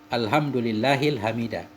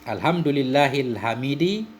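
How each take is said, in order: First: The last word ends in an a vowel. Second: The last word ends in an i vowel. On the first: The word is the object of an unstated 'I praise'. "kita buang amelnya fi'il" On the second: The word describes Allah and follows its case. "majrur tanda jar kasrah"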